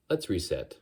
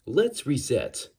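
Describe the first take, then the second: First: Said in the usual way. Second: Slow, over-enunciated synthetic voice. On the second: Shown as a demonstration. Man resetting his voice demo, slow AI enunciation. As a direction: restart as a measured talking computer. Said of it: "By talking like this, I can sound sort of like an A I".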